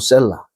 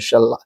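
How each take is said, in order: First: The first vowel is an 'e' sound. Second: The first vowel is an open 'a' sound. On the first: This is the usual Korean rendering. "어쨌든 뭐 셀라 이 발음 나죠" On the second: This is the exact Hebrew pronunciation. "정확하게 히브리어는 샬라"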